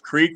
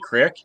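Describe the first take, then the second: First: It is said with the standard long vowel. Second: It is said North Dakota style, short vowel.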